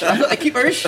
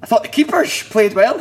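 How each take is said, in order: First: "I thought the keepers" said high and loud, cracking up mid-line; laughing repeat. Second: High, louder mock of the chairman's line, laughing through it; mimicking the chairman. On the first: Retold or imitated. Player laughing while repeating the chairman's phrase. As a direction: giggle your way through "I thought the keepers". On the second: Chairman praising keepers, mocked by a laughing player. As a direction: ham up the guest's earnest praise while laughing. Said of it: "I remember a guy going".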